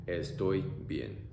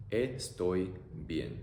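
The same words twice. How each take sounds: First: Said in the usual way. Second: Very slow "Estoy bien." syllable by syllable; teacher modelling slowly; slow demo. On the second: Shown as a demonstration.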